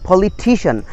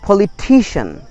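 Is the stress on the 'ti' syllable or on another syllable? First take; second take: 'ti' syllable; 'ti' syllable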